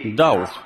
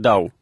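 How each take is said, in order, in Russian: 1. Имя заканчивается на конечный звук «х». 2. Имя заканчивается без конечного звука «х». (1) "правильно его фамилия, он немец, Даух" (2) "а я произношу только Дау"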